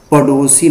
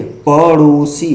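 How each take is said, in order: First: पड़ोसी with a hard ḍ; wrong stop sound. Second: पड़ोसी with ṛ flicked off the palate; correct flap. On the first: Teacher rejecting the wrong form, पड़ोसी with stopped ḍ. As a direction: say पड़ोसी wrongly as paḍosi, no flap. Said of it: "पड़ोसी नहीं होता है". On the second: Teacher stating the correct form, पड़ोसी with flapped ṛ. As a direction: say पड़ोसी as paṛosi. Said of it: "शुद्ध". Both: Shown as a demonstration.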